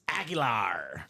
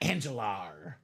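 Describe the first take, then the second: First: The name starts with 'ag' and has no 'n'. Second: The name starts with 'an' and has an 'n'. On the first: The speaker calls it right. "It's Aguilar" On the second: The speaker calls it wrong. "not Angelar"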